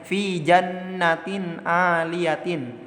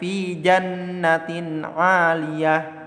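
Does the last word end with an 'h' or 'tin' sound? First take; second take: tin; h. First: The last word ends with a 'tin' sound. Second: The last word ends with a soft 'h' sound. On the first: This is the full written form. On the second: The reader stops at this word. "maka dibacanya"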